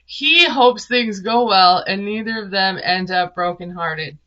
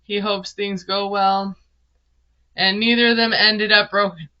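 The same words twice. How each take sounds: First: Big emphatic "He", then settle into the rest; stress on HE. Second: Said in the usual way. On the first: Real, not acted. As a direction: lean hard on "He" to restart the line. Restarts the line after flubbing it.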